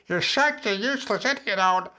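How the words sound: It is said in a ridiculous, put-on voice. The inner critic cannot be taken seriously.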